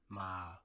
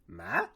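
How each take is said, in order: First: The pitch starts low and falls lower. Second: The pitch dips down, then rises back up. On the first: "It's like you fall down" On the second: "you have to go down and then you go back up"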